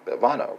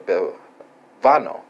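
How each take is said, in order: First: "bevano" said quickly and higher, with a rise at the end; quick natural Italian. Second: "bevano" stretched out slowly, every syllable spelt out; slow careful Italian. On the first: Teacher repeating the Italian form at natural speed, quick and rising. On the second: Teacher sounding out the Italian verb for learners, very slow. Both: Shown as a demonstration. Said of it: "I will provide you with the pronunciation".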